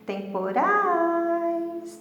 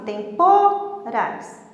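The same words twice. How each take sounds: First: The stress is on the last syllable. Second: The stress is on the second syllable. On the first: The speaker calls it right. "urais saiu mais forte" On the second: The speaker calls it wrong. "Não vou falar assim, para o pô sair mais forte"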